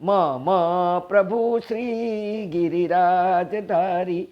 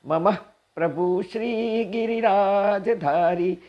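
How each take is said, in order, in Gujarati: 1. 'mama' બે અલગ અક્ષરોમાં વહેંચાયેલું છે. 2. 'mama' જોડાયેલું છે અને અંતે હળવો 'h' અવાજ છે. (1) "મ મને છૂટું પડાય જ નહીં" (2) "મમ પછી હ કરીને ઠસકો દેવાનો હોય"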